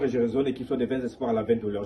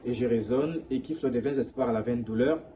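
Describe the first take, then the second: First: The phrase flows on a single breath. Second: The phrase is broken up with breaths. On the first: The speaker calls it right. "simplement de respirer une seule fois" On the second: The speaker calls it wrong. "c'est la mauvaise lecture"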